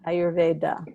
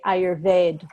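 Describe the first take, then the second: First: The word ends with a short final vowel sound. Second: The word ends on a consonant, no final vowel. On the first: This keeps the Sanskrit ending. The speaker calls it right. "there's always that uh sound at the end" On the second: This is how Hindi speakers often say it. The speaker calls it wrong. "Hindi speakers will say Ayurved"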